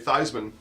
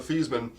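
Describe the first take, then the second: First: The first syllable rhymes with Heisman. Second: The first syllable does not rhyme with Heisman. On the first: The name was changed to rhyme with a trophy. "changed the pronunciation guide to say Theismann, and Theismann for Heisman" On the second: This is the family's original pronunciation. "he was Joe Thiesman"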